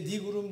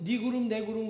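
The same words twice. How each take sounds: First: Said in the usual way. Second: Excited. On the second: Retold or imitated. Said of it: "신나가지고".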